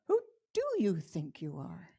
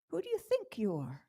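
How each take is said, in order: First: The stress falls on the word do. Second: The stress falls on the word think.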